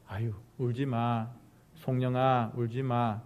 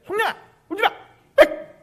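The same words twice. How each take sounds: First: Low, soft hushing of a crying person; tender consoling. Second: Very high yelling at a crier; shrieked scolding. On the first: Preacher showing how to comfort someone crying, tenderly. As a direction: console gently, as if patting them. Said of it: "이렇게 말하는 거하고". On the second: Preacher showing the wrong way to someone crying, shrill scolding. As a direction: snap at them in a high shriek. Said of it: "이렇게 하는 거하고는 완전히 틀린 거예요". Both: Shown as a demonstration.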